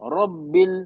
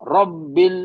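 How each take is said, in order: First: The doubled b is said softly and lightly. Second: The doubled b is said firmly, with pressure. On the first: The speaker calls it wrong. "पहले स्टार्टिंग में थोड़ा नरमी किए" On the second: The speaker calls it right. "Second time थोड़ा सख्ती किया"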